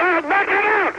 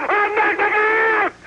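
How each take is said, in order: First: Raised, punchy threat. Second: Higher, slow stretched yell; drawn-out shout. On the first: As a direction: shout the threat higher. Boasting, escalating shout. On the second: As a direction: stretch the threat out slowly. Repeat, even higher and drawn out. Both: Real, not acted.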